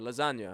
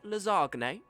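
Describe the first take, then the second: First: It is said in a plain English way. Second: It is said with an exaggerated Italian accent. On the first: "It's like a lasagna" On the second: "like English people trying to order an Italian dish"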